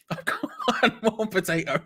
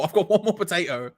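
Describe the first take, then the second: First: High, laughing repeat; helpless giggly voice; cracking up. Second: Said in the usual way. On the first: Real, not acted. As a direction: break into laughter through the words. Same words, cracking up laughing.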